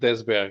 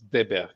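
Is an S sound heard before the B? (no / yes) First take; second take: yes; no. First: An S sound is heard before the B. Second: No S sound is heard before the B. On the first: The speaker calls it wrong. "not Desberg" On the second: The speaker calls it right. "you don't pronounce the S"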